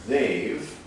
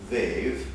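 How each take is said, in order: No difference in how they are said.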